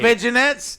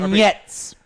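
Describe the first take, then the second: First: The word is pronounced in a quirky nonstandard way. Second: The word is pronounced in the standard way. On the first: The speaker calls it wrong. "I say that wrong every single time" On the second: The speaker calls it right. "Just to prove that I could say it"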